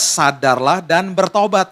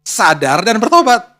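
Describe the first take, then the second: First: Slow, stressed bertobat; slow scripture quote with "bertobat" stressed; emphatic quote. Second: "bertobat" stressed, slow and louder; slow, louder "Sadar dan bertobat"; emphatic repeat. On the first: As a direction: lean on "bertobat" slowly. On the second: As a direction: drive home "bertobat" slowly. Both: Shown as a demonstration. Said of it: "Jangan cuma sadar aja".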